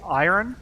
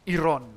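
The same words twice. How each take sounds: First: It is said in a standard English way. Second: It is said with a Finnish accent.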